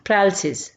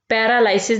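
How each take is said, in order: First: The third syllable has a short 'ih' vowel. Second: The third syllable has an 'eye' vowel. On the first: The speaker calls it right. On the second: The speaker calls it wrong.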